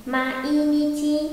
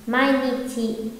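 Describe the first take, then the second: First: Sung, "Mainichi" drawn out syllable by syllable, higher, held on the end; sung, stretch "Mainichi" slowly into separate beats, ma-i-ni-chi; sung-style mainichi. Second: "Mainichi" with a and i joined as one "mai" glide; correct joined reading. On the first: Sung, teacher shows students how songs read it, drawn-out syllables. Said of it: "người ta sẽ đọc là mainichi đâu". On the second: Teacher gives students the proper reading, vowels linked. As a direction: say "Mainichi" in three beats, mai-ni-chi. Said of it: "còn đúng ra phải đọc là gì nhỉ". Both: Shown as a demonstration.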